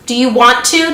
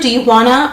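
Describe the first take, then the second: First: Want to is said in full, two clear words. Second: Want to is reduced to a quick wanna.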